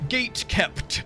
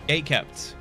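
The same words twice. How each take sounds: First: The t in gate is fully and hard released. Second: The t in gate is swallowed, not released. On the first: "I don't be like, gate kept... I don't fucking enunciate every single consonant with a hard" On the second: "this is what English people do"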